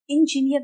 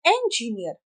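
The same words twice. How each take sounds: First: इंजीनियर opening with short i, "injiniyar"; wrong "i" start. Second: इंजीनियर opening with e, as "enjiniyar"; "e" sound first. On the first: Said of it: "इंजीनियर नहीं बोलते". (इंजीनियर की शुरुआत छोटी 'इ' से) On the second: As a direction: start इंजीनियर on e as in egg. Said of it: "एस sound". (इंजीनियर की शुरुआत 'ए' से) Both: Shown as a demonstration.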